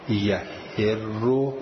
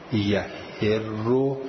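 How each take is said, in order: First: The vowel after the h is i. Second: The vowel after the h is i.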